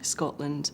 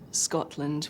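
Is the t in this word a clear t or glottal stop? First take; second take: glottal stop; clear t. First: The t is replaced by a glottal stop. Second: The t is pronounced as a clear t.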